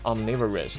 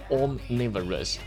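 First: The word is said with an American accent. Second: The word is said with a British accent. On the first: "因为这是一个美音啊，所以它会读的是有点这个o 的音" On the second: "如果是英音的话是"

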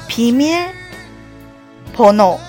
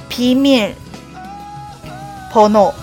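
No difference in how they are said.

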